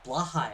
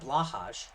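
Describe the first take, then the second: First: The name ends with a 'y' sound. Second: The name ends with a 'j' sound. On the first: "I believe is actually it's pronounced" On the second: "I always pronounce that J"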